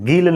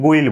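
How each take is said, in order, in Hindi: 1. स्वर 'ee' जैसा सुनाई देता है। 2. स्वर 'eye' जैसा सुनाई देता है। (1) "गील नहीं बोलेंगे" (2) "इसे हम गुइल बोलेंगे"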